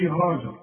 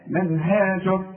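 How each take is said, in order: First: هاجر with a dark, thickened haa; wrong heavy ha. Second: من هاجر recited slowly with a thin, fronted haa; light ha. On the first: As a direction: say هاجر with a heavy back vowel after ه. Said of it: "ما نقولش". (هاجر بهاء مفخمة بالغلط) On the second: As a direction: keep the ها of من هاجر light, noon clear. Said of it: "ما نقولش هاجر". (من هاجر بترقيق الهاء وإظهار النون) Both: Shown as a demonstration.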